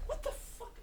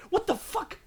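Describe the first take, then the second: First: Breathless high whisper of disbelief; hushed incredulous whisper; stunned whisper. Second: Real shock, voice jumping high; startled high outburst; shocked exclamation. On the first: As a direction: whisper it, still in shock. Stunned whisper after the outburst. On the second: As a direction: blurt it out, stunned by the surprise. Shocked at a surprise number. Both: Real, not acted.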